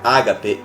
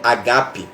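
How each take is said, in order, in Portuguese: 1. A palavra recebe a pronúncia portuguesa familiar. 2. A palavra recebe a pronúncia grega original. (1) "no original não é ágape" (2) "Essa é a forma certa de pronunciar"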